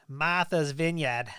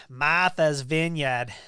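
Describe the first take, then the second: First: Said in the usual way. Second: Slow, loud try at an East Coast accent, dropped r; a hammed-up New England accent on Martha's Vineyard; Eastern accent. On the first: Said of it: "Is that how you say it". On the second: Shown as a demonstration. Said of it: "I don't have a very good Eastern, Eastern accent there".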